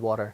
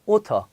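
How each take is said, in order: First: The middle t sounds like a soft d. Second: The middle t is a crisp, clear t. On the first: "D, 약간 D" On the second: "영국에서는 또 이 T 발음을 또 해요"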